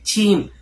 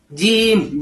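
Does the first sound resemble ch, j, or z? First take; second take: ch; j. First: It starts with breath, sounding like ch. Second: It starts with a plain j, without breath. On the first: The speaker calls it wrong. "Kalau keluar nafas malah kedengaran kayak huruf C" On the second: The speaker calls it right. "nggak keluar nafas"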